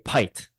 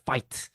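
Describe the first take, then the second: First: The word begins with a P sound. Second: The word begins with a forceful F sound. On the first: It mocks the accent too much. "they would say pite" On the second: It captures a subtle accent nuance. "he has to try like extra hard"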